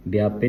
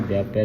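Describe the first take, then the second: First: ਵਿਆਪੇ ending in a close "ay"; wrong vowel. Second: ਵਿਆਪੈ ending in an open "ai"; dulavan vowel. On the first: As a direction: narrow final e on ਵਿਆਪੇ. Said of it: "ਨਹੀਂ ਪੜ੍ਹਨਾ". (ਵਿਆਪੇ ਨੂੰ ਲਾਂ ਨਾਲ ਬੋਲੋ) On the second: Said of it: "ਧਿਆਨ ਰੱਖਣਾ". (ਵਿਆਪੈ ਨੂੰ ਦੁਲਾਵਾਂ ਨਾਲ ਬੋਲੋ) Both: Shown as a demonstration.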